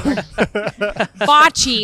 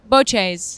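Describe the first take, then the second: First: It is pronounced the American way. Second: It is pronounced the Italian way. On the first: "bocce is how we say it in America" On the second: "how you say it in Italy"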